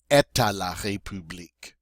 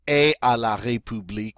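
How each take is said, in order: First: A T sound links et to à. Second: Two vowel sounds meet with no T between. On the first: The speaker calls it right. "we're going to say" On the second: The speaker calls it wrong. "instead of saying"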